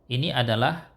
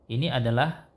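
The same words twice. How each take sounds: No difference in how they are said.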